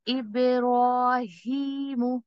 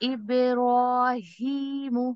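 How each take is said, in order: First: The sounds are said light and thin. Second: The sounds are said light and thin.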